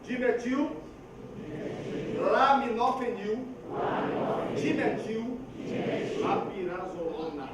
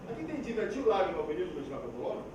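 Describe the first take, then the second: First: "laminofenil" slow, every syllable clear; careful articulation. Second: Fast and slurred, "dimetil" swallowed, fading softer; mumbled pharmacy name; rushed mumble. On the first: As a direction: spell out each syllable cleanly. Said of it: "Pra treinar duas coisas". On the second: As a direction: gabble the drug name carelessly. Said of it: "Como é que é?". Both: Shown as a demonstration.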